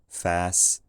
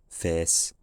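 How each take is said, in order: First: The vowel is an open 'ah'-like sound. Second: The vowel is a closer 'eh'-like sound. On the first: "Some people, ... said fas" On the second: "and some people said fes"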